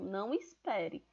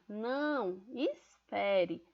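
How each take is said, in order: First: It runs on without a pause after "não". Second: There is a pause after "não". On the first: The listener is told not to wait. "É uma rápida afirmação" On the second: The listener is asked to wait. "eu estou pedindo para a pessoa esperar"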